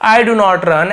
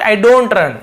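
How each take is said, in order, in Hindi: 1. 'do not' को दो पूरे शब्दों की तरह बोला जाता है। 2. 'do not' को एक सिलेबल में छोटा कर दिया जाता है, 'don't'। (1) "ऐसे ना बोल के" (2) "स्पीकिंग में थोड़ा आसानी हो तो शॉर्ट में ऐसे आई डोंट"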